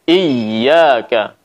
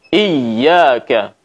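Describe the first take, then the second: The two takes are said the same way.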